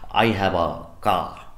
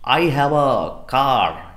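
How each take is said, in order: First: The r at the end of car is silent. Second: The r at the end of car is pronounced. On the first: "British English में हम कहते हैं ... जहाँ पर कार में आर उच्चारण नहीं है" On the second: "American English में हम कहते हैं ... जहाँ कार में आर उच्चार्य है"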